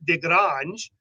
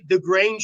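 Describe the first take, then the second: First: The name is said with French-style sounds. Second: The name is said with plain English sounds. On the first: "I feel like it should be pronounced De Grange" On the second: "I want to say the Grange Street"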